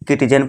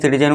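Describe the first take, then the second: First: The word begins with a k sound. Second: The word begins with a plain s sound. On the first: The speaker calls it wrong. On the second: The speaker calls it right.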